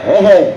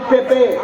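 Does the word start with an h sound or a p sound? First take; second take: h sound; p sound. First: The word begins with an h sound. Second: The word begins with a p sound. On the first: "এরা কয় হে হে; এরা তো প উচ্চারণ করতে পারে না" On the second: "আমরা কই পেপে"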